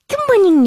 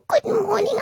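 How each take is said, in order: First: It is said in the speaker's natural voice. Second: It is said in a put-on pet voice.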